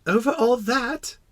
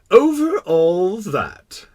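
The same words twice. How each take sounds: First: Put-on high, slow child's question; amazed little prince. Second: Loud, very slow, higher pronouncement; assured king. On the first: Little prince questioning the king's vast realm, amazed. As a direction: ask it in small-voiced wonder. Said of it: "asked the little prince". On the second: Acted. King confirming his universal rule, majestic. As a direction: draw it out grandly as monarch. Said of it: "the king answered".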